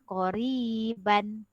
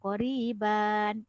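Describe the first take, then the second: First: The final vowel before the n stays short. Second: The final vowel before the n is lengthened. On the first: The speaker calls it right. "Kita baca koriban" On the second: The speaker calls it wrong. "tidak boleh kasih panjang"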